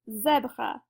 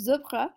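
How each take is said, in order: First: The first vowel sounds like the e in jet. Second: The first vowel does not sound like jet's e. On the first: "it's going to sound like the E in jet" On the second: "If the accent grave was not there, it would be"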